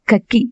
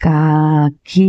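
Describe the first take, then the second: First: కక్కి said with a doubled కక్; wrong doubled k. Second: కాకి drawn out very slowly with long కా; slow and stretched. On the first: Retold or imitated. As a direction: imitate the child's clipped కక్కి. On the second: Shown as a demonstration. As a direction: spell out కాకి slowly for the child. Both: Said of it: "కక్కి కాదు".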